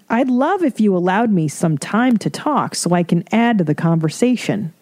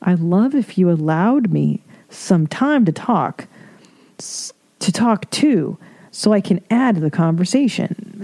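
First: Courteous request, lightly put on; mock politeness. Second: Stilted mock politeness. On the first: Speaker to a family member who won't stop talking, mock politeness. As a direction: ask politely, faintly prim. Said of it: "politely say". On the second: Reader mocking how nobody talks to family, stilted politeness. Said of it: "Nobody talks like that".

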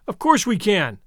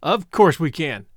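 First: Enthusiastic. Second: Slower, steady reassurance; calm and slow. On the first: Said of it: "I supplemented enthusiastically". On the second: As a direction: settle it calmly, unhurried. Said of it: "And then he said". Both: A narrator's reading.

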